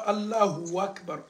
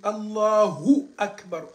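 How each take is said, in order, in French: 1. Un son w relie les deux mots. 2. Un 'hu' net est suivi directement de 'a'. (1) "tu as dit hu et tu as dit wa. On ne dit pas" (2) "on dit Allahu Akbar. Ça dit le hu, après le hu net a"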